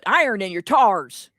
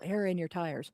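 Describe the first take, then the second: First: It is said in a Southern accent. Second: It is said in a plain accent.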